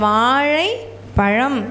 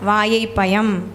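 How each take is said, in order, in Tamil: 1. மெய்யெழுத்துகள் retroflex zh ஆக உச்சரிக்கப்படுகின்றன. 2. மெய்யெழுத்துகள் சாதாரண y ஆக உச்சரிக்கப்படுகின்றன. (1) "அவங்க வாழை பழம் அப்படின்னு சொன்னால்" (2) "ழகரம் வரல"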